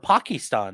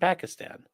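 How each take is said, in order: First: The word is said in an imitated, different pronunciation. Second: The word is said in a plain, ordinary pronunciation.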